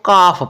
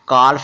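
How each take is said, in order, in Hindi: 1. इस शब्द में L साइलेंट है। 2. इस शब्द में L की आवाज़ बोली जाती है। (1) "इसको काफ पढ़ना है" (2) "काल्फ नहीं पढ़ना"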